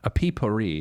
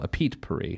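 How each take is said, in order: First: It is said without a T sound. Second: It is said with a clear T sound. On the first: The speaker calls it wrong. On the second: The speaker calls it right.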